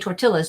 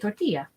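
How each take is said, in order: First: The double L sounds like an English L. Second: The double L sounds like an English Y. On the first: The speaker calls it wrong. "We don't say tortillas" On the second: The speaker calls it right. "We say tortilla"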